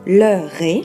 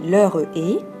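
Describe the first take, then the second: First: The two words run together without an extra vowel. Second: An extra e sound separates the two words. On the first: The speaker calls it right. "vous devez faire la liaison" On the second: The speaker calls it wrong. "vous compterez trois syllabes et votre compte final sera faux"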